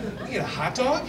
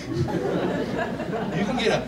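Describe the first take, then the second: First: Rising, higher, amazed; mock astonishment, rising; incredulous question. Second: Drawn out very slowly, laughing; mock awe, slow; slow dawning amazement. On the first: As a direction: ask it like you can't believe it. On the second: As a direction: stretch the words as it sinks in. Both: Dairy Queen discovery.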